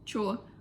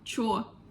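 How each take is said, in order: First: The word is pronounced like 'cho'. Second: The same.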